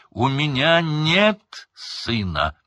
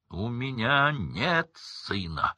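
First: Louder, higher, slow shout; furious repetition. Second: Slow, hard rejection; cold denial. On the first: Crouch repeating the denial, bulging-eyed shout. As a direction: roar the denial. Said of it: "Глаза почти вылезли из орбит". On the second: Crouch disowning his son, cold and slow. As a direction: disown him coldly. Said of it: "Голос Крауча перекрыл все". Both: A narrator's reading.

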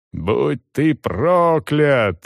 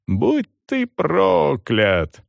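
First: Very slow, drawn-out curse; roaring curse. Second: Very slow, higher drawn-out curse; roaring curse. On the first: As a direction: bellow the curse at him. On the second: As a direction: howl the curse once more. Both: A narrator's reading. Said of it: "ревела женщина".

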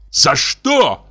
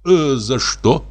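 First: Higher, louder indignant shout. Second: Slow, gentle, puzzled question; gently. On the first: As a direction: fling the question back in rage. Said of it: "крикнул Иван Дмитриевич". (с криком, возмущённо) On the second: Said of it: "спросил мягко". (мягко, недоумённо) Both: A narrator's reading.

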